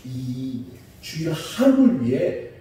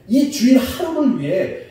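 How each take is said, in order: First: Said in the usual way. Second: 이 주일 하루를 위해 pitched high and driven hard; insistent, high stress on 이 주일 하루를 위해; emphatic repeat. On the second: Real, not acted. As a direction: hit 이 and 하루를 with a raised, forceful voice.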